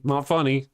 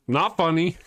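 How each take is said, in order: First: Said in the usual way. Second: Higher repeat. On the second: Retold or imitated. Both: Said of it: "My face goes".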